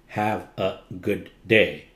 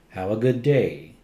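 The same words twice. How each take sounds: First: The words are said separately, not smoothly joined. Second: The words are joined smoothly together. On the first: The speaker calls it wrong. "Not have a good day. That's not gliding" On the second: The speaker calls it right. "Gliding is making it smooth"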